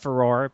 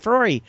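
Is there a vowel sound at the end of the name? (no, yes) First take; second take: no; yes. First: The name ends without a final vowel sound. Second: The name ends with an extra vowel sound. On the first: This is the actual pronunciation of the name. "as I believe it's actually pronounced Ferrore" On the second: This is the speaker's own playful pronunciation. "there's like a silent E that I love to pronounce, so I always say Ferrari"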